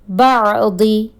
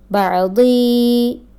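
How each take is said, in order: First: The final vowel is short. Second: The final vowel is long. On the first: The speaker calls it right. "There is no ya, no long sound" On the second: The speaker calls it wrong. "Look at the wrong pronunciation"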